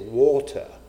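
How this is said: The word is said in a British accent. This is the posh way expected at a formal supper. The speaker calls it right. "We have to put on our British accents ... taught me how to say water"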